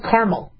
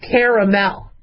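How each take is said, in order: First: The word is said with two syllables. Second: The word is said with three syllables. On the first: "Some of you might be like" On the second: "I pronounce it with three syllables"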